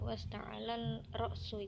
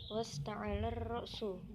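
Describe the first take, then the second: First: The L sound is kept before the R. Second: The L sound merges into the following R. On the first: The speaker calls it wrong. "bukan ... itu bukan" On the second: The speaker calls it right. "suara huruf al dimasukkan ke dalam huruf ro"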